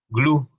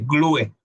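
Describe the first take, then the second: First: The final e is silent. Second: The final e is pronounced aloud. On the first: The speaker calls it right. "la E al final de una palabra es muda" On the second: The speaker calls it wrong. "en vez de"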